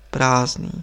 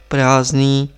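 First: Said in the usual way. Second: "Prázdný" said firmly and drawn out; emphatic repeat. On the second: A narrator's reading. Lama making sure the monk understands, "Prázdný" said with emphasis. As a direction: stress "Prázdný" to drive it home. Word repeated to drive it home.

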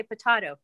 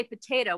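First: Potato as puh-TAH-toh; "potato" with AH in the middle; British-style potato, made up. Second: Potato as puh-TAY-toh; "potato" with AY in the middle; usual potato. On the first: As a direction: say potato with an open AH like British tomato. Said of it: "Why don't you say potato". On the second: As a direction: say potato with a long AY. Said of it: "why do we say potato". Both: Shown as a demonstration.

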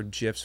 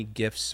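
First: "gifs" with a soft g, like "jiffs"; soft-g pronunciation. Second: "gifs" with a hard g, as in gift; hard-g pronunciation. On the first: Offering chat both pronunciations, soft g in "gifs". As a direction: say "gifs" starting with a j sound. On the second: Offering chat both pronunciations, hard g in "gifs". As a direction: say "gifs" starting like "give". Contrasts two ways of saying it. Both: Shown as a demonstration.

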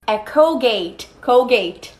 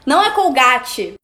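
First: "Colgate" as American "col-gate"; English "Colgate", no final vowel; teacherly English "Colgate". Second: "Colgate" as "col-gah-tchee"; plain Brazilian "Colgate". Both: Shown as a demonstration.

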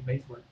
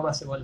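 First: "béisbol" en dos sílabas, beis-bol; como se escucha. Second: "baseball" leído ba-se-bol; como se escribe. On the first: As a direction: di "béisbol" con diptongo ei. ("béisbol" con la pronunciación usual) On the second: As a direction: di "baseball" en tres sílabas españolas. ("baseball" con a y e pronunciadas) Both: Shown as a demonstration. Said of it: "así como se escucha".

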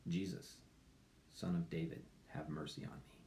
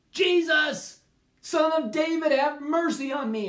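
First: Hushed, breathy whisper of a blind beggar; soft whispered prayer; whispered plea. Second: High, loud cry for mercy; louder desperate shout of the blind beggar; shouted plea. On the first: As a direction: whisper the cry for mercy. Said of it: "Actually, he said". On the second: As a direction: shout it over the crowd, begging. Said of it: "he shouted all the louder". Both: Acted.

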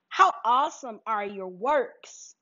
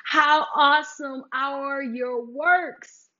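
First: Said in the usual way. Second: "How awesome are your works" stretched word by word, slower; call-and-response line, slowed right down; slow, drawn-out proclamation. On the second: Shown as a demonstration. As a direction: draw every word out for the listeners to repeat. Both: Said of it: "Let's say it again".

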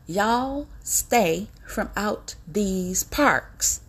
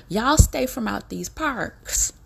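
First: Drawn way out, each word separate; hammered-out slow repeat of the warning. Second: Slow and loud, each word leaned on; deliberate preacher-style warning, louder; slow, emphatic warning. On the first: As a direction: stretch every word like a final warning. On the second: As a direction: drag it out like a stern warning to the whole nation. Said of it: "I'm getting ready to say it just like this here". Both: Shown as a demonstration.

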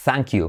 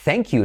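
First: "thank you" with an open Spanish A, "thahnk"; mispronounced "thank". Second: "thank you" with an E vowel, like "thenk"; A becomes E. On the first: Teacher showing what nobody says, "thank you" as "thahnk you". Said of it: "no dices thank you". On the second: Teacher showing the usual form, "thank you" as "thenk you". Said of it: "la A se convierte en una E". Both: Shown as a demonstration.

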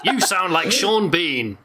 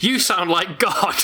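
First: Slow laughing Sean Bean take; a touch of Sean Bean. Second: Slow booming voice of God. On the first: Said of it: "sorry, let me try that again". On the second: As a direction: laugh through a godlike boom. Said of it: "let me try that again". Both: Shown as a demonstration.

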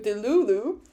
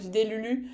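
First: "delulu" with English oo sounds; English pronunciation. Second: "Delulu" with French vowels, like "délülü"; French pronunciation. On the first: Fan preferring the fancier version, "delulu" pronounced in English. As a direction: say "delulu" the English way, like "deh-loo-loo". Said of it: "it sounds fancier in English". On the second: Fan comparing languages, "Delulu" pronounced in French. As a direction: say "Delulu" the French way, with tight u sounds. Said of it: "than in French". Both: Shown as a demonstration.

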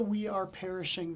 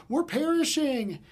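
First: Said in the usual way. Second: Hammed-up wail, higher and louder; mock melodrama. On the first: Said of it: "Did you catch the". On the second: Pastor mocking the disciples' panic, hammed-up wail. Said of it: "disciples take themselves too seriously".

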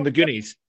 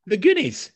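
First: Said in the usual way. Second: The Goonies. said higher and louder, leaning on Goonies; insistent emphasis. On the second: Real, not acted. To a friend who's never seen the film, insistent, stressing Goonies. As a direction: hammer home Goonies like it's obvious.

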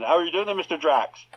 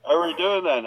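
First: Mock Somerset accent, Bond meeting the villain; a Cornish Bond greeting Drax, hammed-up; West Country Bond. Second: Mock Somerset accent on a Bond line; West Country Bond. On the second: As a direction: play a Cornish Bond as a joke. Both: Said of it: "or a, a Somerset Bond".

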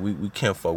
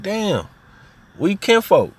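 First: Said in the usual way. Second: Much higher and louder "we kinfolk"; amazed kinship. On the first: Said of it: "That's how we talk". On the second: Retold or imitated. Cousins discovering they're related, high and thrilled. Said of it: "and be like".

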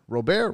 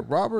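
First: "Robert" said as roh-BAIR, silent T; French-style pronunciation. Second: "Robert" said as ROB-ert; English pronunciation. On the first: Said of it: "It's not Robert". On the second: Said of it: "It's just Robert". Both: Shown as a demonstration.

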